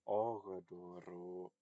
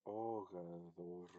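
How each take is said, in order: First: "ogadoro" slowly, with a hard stopped d; slow, loud "ogadoro" with hard d. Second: "ogadoro" slowly, d softened to th as in "this"; slow "ogadoro" with soft d. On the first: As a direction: make the d in "ogadoro" a firm stop. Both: Shown as a demonstration. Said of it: "pronounce that hard or soft".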